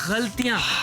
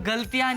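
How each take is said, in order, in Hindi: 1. पहली ध्वनि एक गले की फ्रिक्टिव gh है। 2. पहली ध्वनि एक साधारण स्टॉप g है। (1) "ग के नीचे भी नुक्ता है" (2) "गलतियां नहीं"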